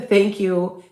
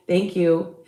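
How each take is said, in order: Both takes have the same delivery.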